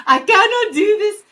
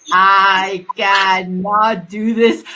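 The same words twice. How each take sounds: First: High, loud burst of mock exasperation; mock exasperated outburst. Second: Loud, dragged-out mock slow motion; exaggerated slow speech. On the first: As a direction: break out in a high-pitched, hammed-up protest. Acted exasperation at speaking slowly. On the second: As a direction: labour over each stretched word, louder. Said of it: "more slower".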